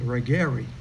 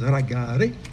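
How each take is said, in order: First: The word is said with an anglicized pronunciation. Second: The word is said with a Scandinavian pronunciation. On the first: The speaker calls it wrong. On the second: The speaker calls it right.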